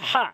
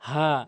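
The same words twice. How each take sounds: First: The h is not a plain throat-start sound. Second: A plain h from the start of the throat. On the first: The speaker calls it wrong. "যেন এটা না হয় হা, এভাবে যেন না হয়" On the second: The speaker calls it right. "একদম নর্মালি হলকের শুরু থেকে"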